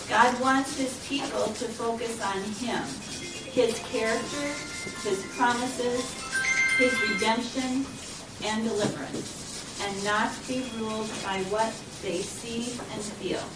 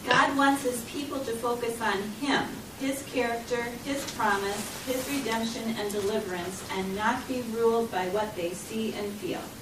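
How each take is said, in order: First: It is said slowly. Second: It is said at a normal speed.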